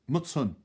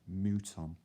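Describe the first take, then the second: First: The first vowel is a short 'u' sound. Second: The first vowel is a long 'oo' sound. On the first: The speaker has always said it this way. "I've always called it a mutton" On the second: Other people say it this way. "other people pronounce it mouton"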